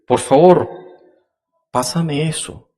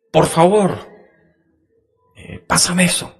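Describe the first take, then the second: First: "Por favor, pásame eso" with a higher, louder start; demo intonation. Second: "Por favor, pásame eso" said much higher; higher pleading tone. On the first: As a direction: pitch "Por favor" up and loud, then ease off. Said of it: "No es lo mismo decir". (entonación de ejemplo, más alta) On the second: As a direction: lift the whole request up high. (tono más agudo, suplicante) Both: Shown as a demonstration.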